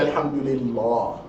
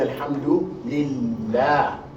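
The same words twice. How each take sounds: First: The L is heavy and full. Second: The L is light and thin. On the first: The speaker calls it wrong. "we don't say" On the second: The speaker calls it right. "We say"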